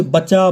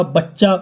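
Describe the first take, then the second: First: Said in the usual way. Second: बच्चा with the च्च held long; lengthened consonant. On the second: Shown as a demonstration. Teacher showing students sound length, बच्चा with a held च्च. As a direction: hold the doubled च्च in बच्चा. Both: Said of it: "उनमें दीर्घता आ जाती है, जैसे".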